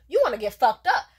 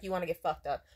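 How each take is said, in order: First: Loud, raised-pitch challenge; mock threat. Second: Said in the usual way. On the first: Woman exasperated at her date's non-answers, loudly threatening. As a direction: repeat it forcefully, spoiling for a fight.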